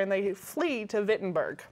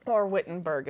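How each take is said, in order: First: Said in the usual way. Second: Wittenberg in a light Canadian pronunciation; Canadian accent. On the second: Shown as a demonstration. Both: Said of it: "if you would like to use my Canadian accent".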